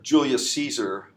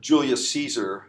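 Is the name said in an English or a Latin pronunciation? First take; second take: English; English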